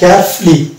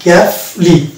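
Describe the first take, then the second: First: The ending has a reduced, silent-u vowel. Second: The same.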